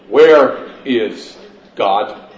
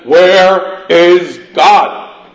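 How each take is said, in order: First: It is said at a calm, normal volume. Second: It is roared loudly and forcefully.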